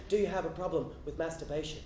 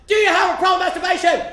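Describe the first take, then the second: First: Low, soft confidential question; close in the ear. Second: High, loud demanding shout; top-of-the-lungs yell. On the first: Church lady leaning in to a boy's ear, low and hushed. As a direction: ask it hushed, right into their ear. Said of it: "leans in close to my ear and says". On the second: Church lady gripping a boy's head, yelling high and loud. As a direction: bellow it at full volume. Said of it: "yells at the top of her lungs". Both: Retold or imitated.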